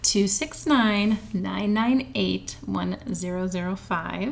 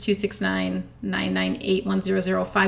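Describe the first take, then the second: First: The number is read slowly. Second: The number is read at normal speed.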